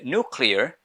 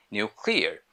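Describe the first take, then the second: First: Nuclear said American style as "noo-clear"; American pronunciation. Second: Nuclear said British style as "nyoo-clear"; British pronunciation. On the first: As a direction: say "nuclear" the American way, no y-glide after n. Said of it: "American people say". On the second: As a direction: say "nuclear" the British way, with a y-glide after n. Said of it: "British people say". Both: Shown as a demonstration.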